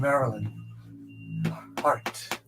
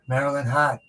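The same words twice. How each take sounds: First: It is said in a general accent. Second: It is said in a Boston accent.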